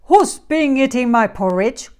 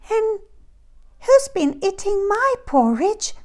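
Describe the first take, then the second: First: It is growled in a deep voice. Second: It is squeaked in a high voice.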